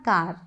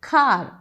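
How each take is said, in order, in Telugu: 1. మొదటి హల్లులో గాలి బయటకు రాదు. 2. మొదటి హల్లులో గాలి బలంగా బయటకు వస్తుంది. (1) "ఇట్స్ నాట్ కార్" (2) "ఖ అది కార్"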